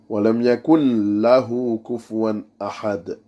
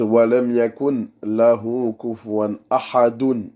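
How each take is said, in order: First: The last word stops short on a 'd' sound. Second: The last word ends with an added 'un' sound. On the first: The speaker calls it right. "Il faut s'arrêter à au del" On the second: The speaker calls it wrong. "c'est pas comme ça. Quand on s'arrête, même en langue arabe, c'est faux"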